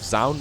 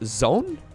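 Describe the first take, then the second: First: The vowel sounds like the one in 'owl'. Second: The vowel sounds like the one in 'own'. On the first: The speaker calls it right. "O U in Dutch would be pronounced as an owl, and it seems like most people are going with" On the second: The speaker calls it wrong. "I always kind of assumed it would be pronounced as Zone, but apparently that's not correct"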